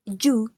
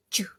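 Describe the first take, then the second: First: Full "ju" with an Indonesian J; mistaken "ju". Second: Brief blended "juh" for ju; corrected "ju". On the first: Student shows what to avoid, heavy "ju". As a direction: give ju a long, voiced "oo" ending. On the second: Student gives the right sound, short "ju". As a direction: cut the vowel of ju short, blending d into it. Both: Shown as a demonstration.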